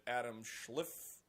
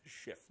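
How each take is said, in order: First: Schliff with an l, shleef-like; mispronounced. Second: Schiff said shif, no l; corrected. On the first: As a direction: say Schliff with an extra l after the sch. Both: Real, not acted. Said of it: "Schiff, not Schliff".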